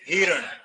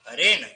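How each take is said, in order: First: The word begins with 'hi' then 'ran'. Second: The word begins with 'ha' then 'rin'. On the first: The speaker calls it wrong. "तो हम सीधा बोल देते हैं हिरण" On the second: The speaker calls it right. "हरिण शुद्ध शब्द है"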